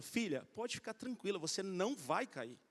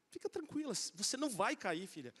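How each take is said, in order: First: Reassuring father. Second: Calm the scared daughter, tenderly; soft reassurance. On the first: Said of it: "que sou o pai". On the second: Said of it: "Porque eu tô aqui". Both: Retold or imitated.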